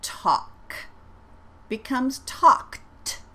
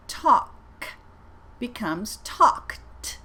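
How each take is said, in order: First: "talked" said slowly with a clear final T sound; slow model "talked" with a crisp T; careful ED sound. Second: "talked" repeated slowly, ending in a crisp T; second slow model of "talked"; careful ED sound. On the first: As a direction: spell out the T at the end of "talked". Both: Shown as a demonstration. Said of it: "I'm gonna say them twice".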